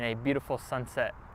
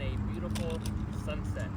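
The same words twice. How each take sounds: First: The voice sounds close and clear. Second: The voice sounds distant and roomy. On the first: "this is what it sounds like with the microphone" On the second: "this is what it sounds like at twenty feet"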